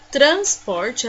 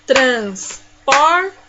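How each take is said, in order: First: Said in the usual way. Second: Syllable by syllable. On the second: Shown as a demonstration. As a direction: split TRANSPORTE into three loud beats. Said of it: "E assim eu separei as sílabas".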